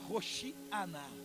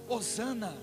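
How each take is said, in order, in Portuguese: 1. A consoante do meio é um som de sh. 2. A consoante do meio é um som de s simples.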